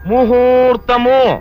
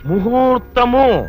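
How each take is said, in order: No difference in how they are said.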